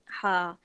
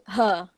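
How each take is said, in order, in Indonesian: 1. H-nya kasar dan berdesah dari tenggorokan. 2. H-nya hembusan napas yang polos dan ringan. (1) "ha pedas kita sebut ha" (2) "ramai yang sebut ha"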